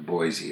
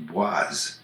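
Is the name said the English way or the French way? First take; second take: English; French. First: The name is said the English way. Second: The name is said the French way. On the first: This is how the place name is actually said. "it turns into Boise" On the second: This is how the spelling would be read in French. "in French that would be Boise"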